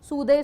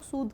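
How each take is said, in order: First: The word ends with an added 'ay' vowel. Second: The word ends on a plain d sound. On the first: The speaker calls it wrong. "सूदे सूदी कोई नहीं बोलेगा" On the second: The speaker calls it right. "इसको pronounce हम लोग सूद कर रहे हैं"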